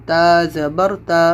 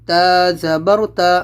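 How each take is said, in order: The two takes are said the same way.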